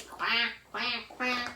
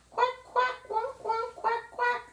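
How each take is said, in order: First: Only slightly raised quacks from a shy big duck. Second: High little duck quacks; small duck quack. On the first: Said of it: "The big ducks say". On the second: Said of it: "The small ducks ... quack". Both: Retold or imitated.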